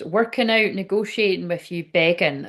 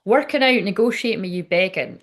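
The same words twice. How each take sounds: First: Said in the usual way. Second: Emphatic reread. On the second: Shown as a demonstration. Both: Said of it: "Right, so".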